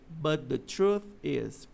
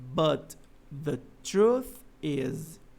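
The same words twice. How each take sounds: First: The words run together with the sounds linked. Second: Each word is said separately, without linking. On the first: "ele vai dizer" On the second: "vocês não vão ouvir ele falando assim"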